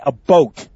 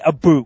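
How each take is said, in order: First: The vowel sounds like the one in boat. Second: The vowel sounds like the one in boot. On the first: The speaker calls it right. "We say a boat. You know, the thing on the water" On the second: The speaker calls it wrong. "We don't say a boot"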